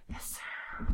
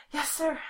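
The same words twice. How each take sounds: First: Soft breathy whisper. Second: Said in the usual way. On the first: Real, not acted. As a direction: repeat it in a whisper. Repeat in whisper.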